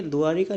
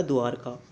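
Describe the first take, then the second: First: द्वारिका with "ri" in the middle; wrong form. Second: द्वारका with no i after the r; correct form. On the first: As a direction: say द्वारिका as du-aa-ri-kaa. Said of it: "नहीं होता". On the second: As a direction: say द्वारका as du-aar-kaa. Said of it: "ये होता है". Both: Shown as a demonstration.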